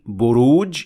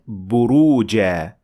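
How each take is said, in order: First: The word ends on a consonant. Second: The word ends on a long vowel. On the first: The speaker calls it wrong. "I didn't say buruj and then stopped" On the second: The speaker calls it right. "I said buruja, simply because the word ended with tanween fatha"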